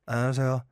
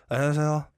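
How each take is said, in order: Both takes have the same delivery.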